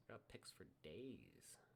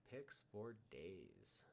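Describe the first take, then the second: First: A slow hushed whisper. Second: Very slow, each word stretched; drawn out. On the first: To the viewers, savouring his many picks, whispered slowly. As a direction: breathe it out like a secret. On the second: Echoing his own boast, drawn out very slowly. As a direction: linger on picks for days. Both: Pretend. Repeats phrase in two ways.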